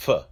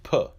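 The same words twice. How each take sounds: First: "F" as an airy "fuh"; soft F sound. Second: "P" as a puffed "puh"; hard P sound. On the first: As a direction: sound out "F" with a short schwa. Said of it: "does not have a Dagesh inside". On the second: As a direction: sound out "P" as a popped consonant. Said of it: "When the Peh has a Dagesh inside". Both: Shown as a demonstration.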